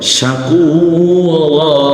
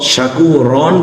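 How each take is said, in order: First: The word ends with a lengthened 'a' vowel. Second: The word ends with a nasal 'an' sound. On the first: The speaker calls it right. "যদি এটা থেমে যাওয়ার জায়গা হয় শাকুরা" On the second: The speaker calls it wrong. "শাকুরন বলবো না"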